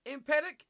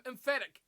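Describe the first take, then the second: First: "Emphatic" misread with a hard P for the ph; misread pronunciation. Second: "emphatic" with an F sound for the ph; corrected pronunciation. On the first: Commentator puzzling over a viewer's word, "Emphatic" misread as em-PET-ic. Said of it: "I'm probably misreading the emphatic". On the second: Commentator correcting his own misreading, "emphatic" said as em-FAT-ic. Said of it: "That's probably a better way". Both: Real, not acted.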